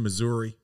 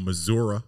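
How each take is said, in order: First: It is said in a neutral accent. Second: It is said in a Southern accent.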